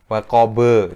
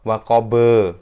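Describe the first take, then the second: The two takes are said the same way.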